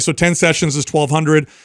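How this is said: It sounds short, flat and matter-of-fact. The speaker is confident in the offer. The speaker calls it right. "Very matter of fact, very short"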